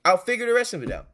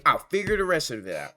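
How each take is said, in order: First: "I'll figure the rest of it out." said again much higher, louder and faster; emphatic repeat. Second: Said in the usual way. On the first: Real, not acted.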